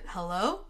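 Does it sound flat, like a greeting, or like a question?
question. It is said with a rising, questioning tune.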